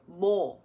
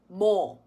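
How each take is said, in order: First: The w glide is dropped entirely. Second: The w glide is dropped entirely.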